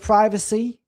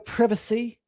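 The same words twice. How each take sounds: First: It is said with an American pronunciation. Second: It is said with a British pronunciation. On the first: "instead of" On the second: "The Brits like their privacy"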